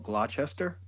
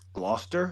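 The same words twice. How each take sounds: First: It is read out the way it is spelled. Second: It is said in a shortened, reduced form. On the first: The speaker calls it wrong. "it's spelled Gloucester" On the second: The speaker calls it right. "but it's Gloucester"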